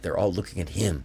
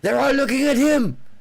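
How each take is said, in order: First: It is said in the speaker's own voice. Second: It is said imitating the other man's voice.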